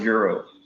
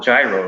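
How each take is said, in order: First: The word begins with a Y sound. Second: The word begins with a J sound. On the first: This is how people here say it, the Greek way. "Over here, they always they call it a euro" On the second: This is how people in New York say it. "in New York, you you would call it a gyro"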